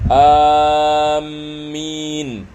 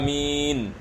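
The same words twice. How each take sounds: First: The m sound is doubled and held. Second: The vowels are kept short. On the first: Those heading toward somewhere. "kalau kita melakukan tasydid" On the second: O Allah, answer our prayer. "dibaca dengan pendek"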